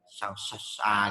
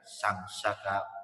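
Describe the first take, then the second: First: The second word's middle consonant is s. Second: The second word's middle consonant is k. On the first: The speaker calls it wrong. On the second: The speaker calls it right.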